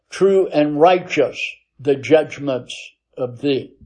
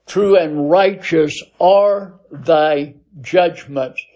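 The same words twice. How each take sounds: First: Said in the usual way. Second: Slow, with are pressed clearly and firmly; stress on are. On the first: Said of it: "But the Greek text says". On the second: Shown as a demonstration. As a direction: lean on the word are, slowly and deliberately. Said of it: "in English, we have to insert it".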